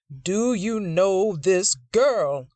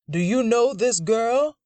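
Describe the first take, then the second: First: Drawn-out, heavy demand; slow stern demand. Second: High, loud accusing demand; angry demand. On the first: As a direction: press each word slowly. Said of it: "Preacher Dixon demands again". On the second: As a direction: bark the question at him. Grandfather interrogating Grant. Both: Acted.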